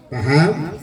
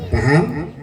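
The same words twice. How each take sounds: Both takes have the same delivery.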